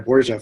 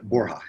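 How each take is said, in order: First: The surname is said in its anglicized childhood form. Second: The surname is said in its Spanish-origin form. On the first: This is the form the family first used. The speaker calls it wrong. "I actually went by Borgia for most of my young life" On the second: This is the name's proper form. The speaker calls it right. "the official pronunciation"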